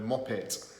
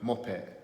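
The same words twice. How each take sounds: First: The final T sound is clearly pronounced. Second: The final T sound is dropped.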